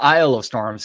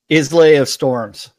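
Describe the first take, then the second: First: The first word is said as 'eye-l'. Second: The first word is said as 'iz-lay'. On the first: The speaker calls it wrong. "It's no longer an Isle of Storms" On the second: The speaker calls it right. "should we start pronouncing it Islay?"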